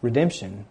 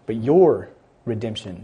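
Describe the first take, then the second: First: Said in the usual way. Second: Your pressed and prominent; your redemption, with weight on your; stress on your. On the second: Shown as a demonstration. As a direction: hit the word your. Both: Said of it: "Not just".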